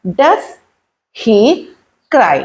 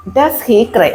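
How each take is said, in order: First: Each word alone, with long pauses. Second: Said in the usual way. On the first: Shown as a demonstration. Teacher showing how to ask about a crying child, word by word. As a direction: slowly dictate it one word at a time.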